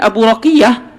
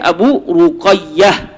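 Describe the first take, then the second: First: The name is said as Raqiyah. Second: The name is said as Ruqayyah. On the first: The speaker calls it wrong. "jangan dibaca" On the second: The speaker calls it right.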